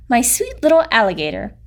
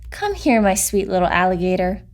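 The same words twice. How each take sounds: First: Said in the usual way. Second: Gentle voice. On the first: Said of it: "She called her". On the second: A narrator's reading. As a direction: coo it like a loving mother. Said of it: "a voice as gentle as the whispering grass".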